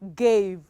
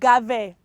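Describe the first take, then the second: First: The vowel is long, like in cake. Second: The vowel is short, like in cat. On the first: The speaker calls it right. "allows the vowel close to it to say its name" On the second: The speaker calls it wrong. "instead of saying Gave"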